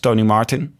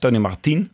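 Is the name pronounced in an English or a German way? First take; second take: English; German. First: The name is pronounced the English way. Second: The name is pronounced the German way. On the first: "op zijn Engels" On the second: "een soort Duits"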